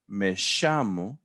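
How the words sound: The double L has an Argentine 'sh' sound. The speaker is from Argentina. "you're from Argentina, aren't you?"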